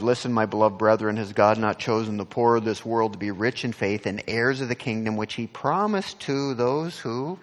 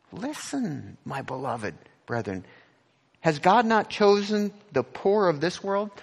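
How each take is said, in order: First: Louder and faster, driving through the verse; loud fast rereading. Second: The verse again, higher and pressing on God; urgent rereading. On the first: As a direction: rush the verse out loud like a proclamation. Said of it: "So again in verse five". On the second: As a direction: press on God as if it's spoken to them now. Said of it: "but it's written for us right now". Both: Shown as a demonstration.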